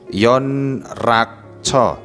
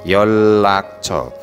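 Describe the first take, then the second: First: The middle sounds are pronounced as n then r. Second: The middle sounds are pronounced as a double l.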